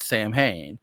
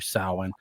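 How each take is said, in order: First: The first syllable sounds like 'sam'. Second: The first syllable sounds like 'sow'. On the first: The speaker calls it wrong. "which is said wrong" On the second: The speaker calls it right. "It's it's actually Samhain"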